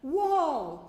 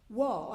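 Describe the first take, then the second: First: It is said more loudly. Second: It is said at normal volume.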